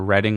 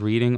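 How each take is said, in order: First: The first vowel is a short 'e' sound. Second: The first vowel is a long 'ee' sound. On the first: "like R E D D" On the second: "like the word reading"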